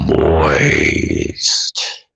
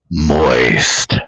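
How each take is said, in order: First: The word is said at a slower pace. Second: The word is said at a quicker pace.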